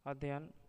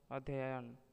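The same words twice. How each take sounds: First: अध्ययन cut short to "adhyan"; अध्ययन in two syllables; wrong pronunciation. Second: Said in the usual way. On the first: Shown as a demonstration. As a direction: lose a syllable in अध्ययन, "ad-yan". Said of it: "अशुद्ध शब्द". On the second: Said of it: "शुद्ध शब्द".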